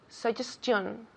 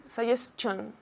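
No difference in how they are said.

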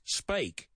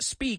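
First: The vowel sounds like 'ay' in 'say'. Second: The vowel sounds like 'ee' in 'see'. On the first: The speaker calls it right. "it's spake" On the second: The speaker calls it wrong. "So it's not speak"

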